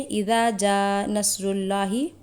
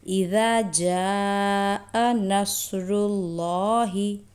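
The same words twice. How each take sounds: First: The long vowels are rushed and cut short. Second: The long vowels are drawn out for two counts. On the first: The speaker calls it wrong. "हम जल्दी में इज़ा जा नस्रुल्लाहि पढ़ देते हैं" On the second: The speaker calls it right. "सही तरीका है"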